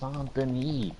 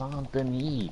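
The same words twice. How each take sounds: First: It is pronounced in a French way. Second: The same.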